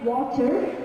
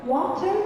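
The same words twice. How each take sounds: First: The middle t is a clear T sound. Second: The same.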